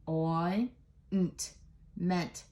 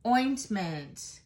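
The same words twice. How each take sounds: First: "Oi, nt, ment" with a pause after each part; slow phonics chunks, "Oi, nt, ment"; sounded out. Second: Said in the usual way. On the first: Shown as a demonstration. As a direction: break ointment into "Oi", "nt", "ment". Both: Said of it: "So let's do it again".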